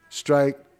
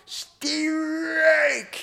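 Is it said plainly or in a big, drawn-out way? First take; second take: plainly; big. First: It is said plainly and briefly. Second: It is said big and drawn out, operatic.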